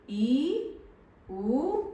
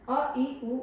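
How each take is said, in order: First: ई, उ each stretched to double length, high; long vowels. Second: अ, ई, उ each said briefly; short vowels. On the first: Teacher showing pupils long vowels take twice the time, drawn out. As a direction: hold ई and उ long, one by one. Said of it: "दीर्घ स्वर के उच्चारण में दुगना समय". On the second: Teacher showing pupils vowels that take little time, said short. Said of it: "कम समय लगा बोलने में". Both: Shown as a demonstration.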